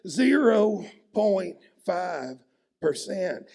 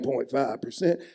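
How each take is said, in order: First: Each syllable is clipped out with hostility. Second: It is said plainly, without hostility.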